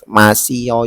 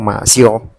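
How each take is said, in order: First: The vowel i is kept, giving three syllables. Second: The i merges into yo, giving two syllables. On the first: "ada yang ngomong masih yo gitu" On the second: "kalau ngomong seperti itu jadi masyo"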